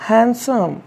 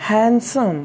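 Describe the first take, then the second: No difference in how they are said.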